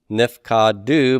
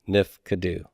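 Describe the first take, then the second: First: The second syllable has a full 'a' vowel. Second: The second syllable's vowel is reduced to a schwa. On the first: The speaker calls it wrong. "I should get a pathak here" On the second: The speaker calls it right. "it will reduce to a vocal shiva"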